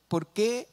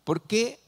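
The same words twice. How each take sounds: The two takes are said the same way.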